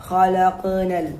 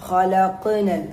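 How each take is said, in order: Both takes have the same delivery.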